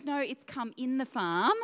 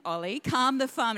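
First: "come in the farm" with a short uh, like come; son's mishearing. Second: "calm the farm" with a clear long ah in "calm"; mum's phrase. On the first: Mum imitating son's version, "come in the farm" with short uh. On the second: Mum retelling to church, saying "calm the farm" properly. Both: Retold or imitated. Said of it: "not calm the farm".

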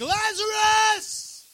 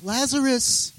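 First: Very high, long drawn-out shout; loud commanding yell. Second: Softly voiced, tentative call; casual, timid request. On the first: Acted. Jesus calling dead Lazarus, full yell. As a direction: bellow the name into a tomb. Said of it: "I'm gonna yell a little bit". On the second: Preacher showing how Jesus didn't call, mild and hesitant. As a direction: call him as if asking a favor. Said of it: "He wasn't like".

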